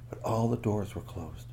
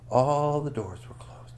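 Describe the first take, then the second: First: Said in the usual way. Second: "All" stretched long and lifted, slow line; hushed storyteller dwelling on "All"; emphatic repeat. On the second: A narrator's reading. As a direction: draw out "All" for suspense.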